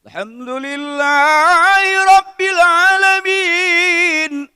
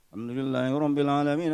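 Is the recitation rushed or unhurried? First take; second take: unhurried; rushed. First: It is recited slowly, stopping after the verse. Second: It is recited fast, running on without a pause. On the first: The reciter leaves room for a personal prayer. The speaker calls it right. "Saya anjurkan setiap ayat berhenti" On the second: The request is unclear and merely hurried through. The speaker calls it wrong. "kalau kita ngebut, ... Saya sampai satu napas"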